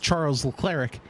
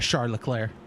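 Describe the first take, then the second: First: The name is read the way it looks. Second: The name is said in its actual pronunciation. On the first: This is how people guess it at first sight. The speaker calls it wrong. "anyone looks at it and says" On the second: This is how the name is really said. The speaker calls it right. "but it's"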